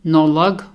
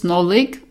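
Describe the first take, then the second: First: The word is pronounced in its genitive form. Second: The word is pronounced in its basic form. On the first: "that's the other one" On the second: "the normal form"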